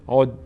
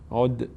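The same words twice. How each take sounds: First: The final d is stopped flat, without echo. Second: The final d is released with a slight bounce. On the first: The speaker calls it wrong. "اگر قلقله نشه چطور میشه؟" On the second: The speaker calls it right. "در هنگام قلقله چی میشه؟"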